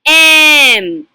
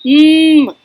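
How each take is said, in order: First: It is said as the letter's full name. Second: It is said as the letter's short sound. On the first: "this is called the alphabet pronunciation" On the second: "let's learn the phonic sounds"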